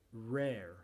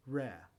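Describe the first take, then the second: First: American "Rare" with both Rs sounded; American pronunciation. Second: British "Rare" with a silent final R; British "Rare", only first R sounded; British pronunciation. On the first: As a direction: say "Rare" the Yankee way. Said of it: "con la pronunciación yankee". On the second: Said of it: "después con la pronunciación británica". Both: Shown as a demonstration.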